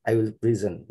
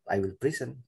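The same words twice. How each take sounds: First: "present" as pri-ZEN, buzzed z; correct verb pronunciation. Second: "present" as PRI-sen with a soft s, softer voice; wrong verb pronunciation. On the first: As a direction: say "present" with i first and weight on ZEN. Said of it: "if it is a verb". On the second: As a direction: say "present" like the noun, dropped softer. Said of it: "not I will present". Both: Shown as a demonstration.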